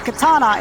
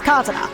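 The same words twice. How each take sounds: First: The stress is not on the first syllable. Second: The stress is on the first syllable. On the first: This is the usual English way. The speaker calls it wrong. "instead of being uh, katana" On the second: This is the Japanese way. The speaker calls it right. "preface the first syllable first"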